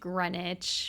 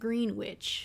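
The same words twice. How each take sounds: First: It is said in the usual way, like 'grenich'. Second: It is said like 'green' plus 'witch'. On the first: "I know it's pronounced Greenwich" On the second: "Might treat myself today and pronounce it Greenwich"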